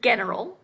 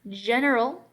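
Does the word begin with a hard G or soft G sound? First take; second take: hard G; soft G. First: The word begins with a hard g sound. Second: The word begins with a soft j sound. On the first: The speaker calls it wrong. "We don't say general, right? That's not how we say this word" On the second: The speaker calls it right. "that is a soft G"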